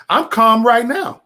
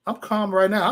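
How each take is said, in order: First: Higher, louder, slow insistence of calm; mock calm. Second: Said in the usual way. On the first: Real, not acted. Telling his viewers he is calm, higher and louder. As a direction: insist you're calm while clearly not.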